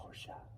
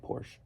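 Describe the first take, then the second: First: The final E is sounded as uh. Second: The final E is left silent. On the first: It sounds snobby. "It just sounds snobby when you say Porsche... Every once in a while I'll say it like that" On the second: It is the casual everyday way. "any other time I just say Porsche. It's kind of like without the E"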